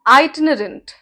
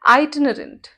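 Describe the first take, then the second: The two takes are said the same way.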